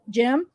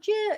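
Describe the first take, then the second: First: The name is said plainly and flatly. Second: The name is said with expressive feeling. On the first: The name is just stated, as if calling for him. "he just said Jim" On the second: The name is said the normal, expected way. "in a way you would say it where it's like, oh Jim"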